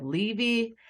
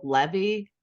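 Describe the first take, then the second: First: "Levy" with long ee, "LEE-vee"; family's pronunciation. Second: "Levy" with short e, "LEV-ee"; actor's pronunciation. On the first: Host giving her family's version, "Levy" as "LEE-vee". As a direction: say "Levy" with two ee sounds. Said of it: "and us go with Levy". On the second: Host contrasting the actor's surname, "Levy" as "LEV-ee". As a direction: say "Levy" to rhyme with heavy. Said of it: "made him go off with Levy". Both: Shown as a demonstration.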